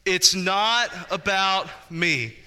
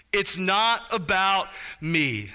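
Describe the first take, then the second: First: It's NOT about me, slower, leaning on not; call and response, slow. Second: It's NOT about me, slow, stress on not; slow emphatic statement. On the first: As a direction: say it together, weight on "not". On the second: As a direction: lean on "not", slowly. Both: Shown as a demonstration. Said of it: "say that out loud with me".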